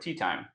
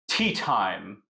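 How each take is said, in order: First: The T sounds are soft and relaxed. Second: The T sounds are sharp and crisp.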